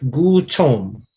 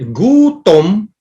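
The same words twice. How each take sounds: First: The t has a puff of air after it. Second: The t is crisp with no puff of air. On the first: The speaker calls it wrong. "not the the the English T" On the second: The speaker calls it right. "the dry T"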